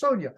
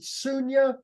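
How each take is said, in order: First: The name is said with its usual vowels. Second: The name's vowels are distorted from their usual form. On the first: The speaker knows the name. The speaker calls it right. "no, it's Sonia" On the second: The speaker does not know the name. The speaker calls it wrong. "That's why I'm saying it wrong"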